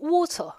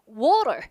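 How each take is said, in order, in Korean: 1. 영국식 발음으로 말합니다. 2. 미국식 발음으로 말합니다.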